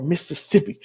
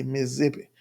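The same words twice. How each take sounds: First: "Mississippi" spelled out in all four syllables, miss-uh-SIP-ee; full Mississippi. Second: "Mississippi" squeezed into three quick syllables, miss-SIP-ee; clipped local Mississippi. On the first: Speaker gives the other way the state name is said, full and careful. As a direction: say "Mississippi" fully, every syllable sounded. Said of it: "or Mississippi". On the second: Speaker shows how Mississippi natives say the state name, clipped. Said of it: "you just say Mississippi". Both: Shown as a demonstration.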